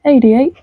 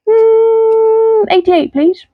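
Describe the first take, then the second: First: Said in the usual way. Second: High puppet voice. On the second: Acted. Puppet choosing number.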